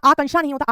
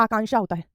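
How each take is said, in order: First: आकांक्षा with short "kan" in the middle; wrong pronunciation. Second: आकांक्षा with long "kaan" in the middle; correct pronunciation. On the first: (गलत उच्चारण, आकांक्षा को आकंक्षा बोलें) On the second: (सही उच्चारण, आकांक्षा में लंबा कां) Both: Shown as a demonstration.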